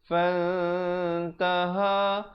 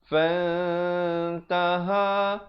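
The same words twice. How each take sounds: The two takes are said the same way.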